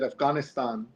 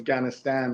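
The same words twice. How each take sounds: First: It uses the speaker's less common pronunciation. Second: It uses the pronunciation most people use. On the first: "I just did it there. I said Afghanistan" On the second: "which most people say"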